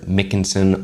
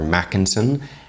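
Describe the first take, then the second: First: The first syllable sounds like mick. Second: The first syllable sounds like mac. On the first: "I'm not a Mick" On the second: "or a Mac"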